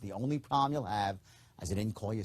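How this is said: It sounds calm and low key. The speaker is being sincere. The speaker calls it right. "Sincerity is calm. It's low key"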